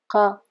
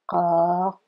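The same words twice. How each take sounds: First: The vowel is short. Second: The vowel is drawn out long.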